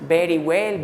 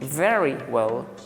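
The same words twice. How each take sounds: First: The word very begins with a b sound. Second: The word very begins with a v sound. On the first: The speaker calls it wrong. "la gente casi siempre pronuncia todo con B" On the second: The speaker calls it right. "es el sonido de la V, v, no B"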